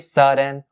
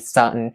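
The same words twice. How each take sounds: First: The d sound in the middle is pronounced. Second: The d sound in the middle is dropped. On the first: "You can also say sudden" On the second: "drop the D sound and say sudden"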